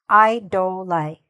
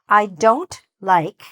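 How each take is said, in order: First: The final consonant of the last word is dropped. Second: The final consonant of the last word is pronounced. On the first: The speaker calls it wrong. "If I do not say this sentence correctly, then it will sound like this" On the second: The speaker calls it right. "You want to make sure that that T is very clear"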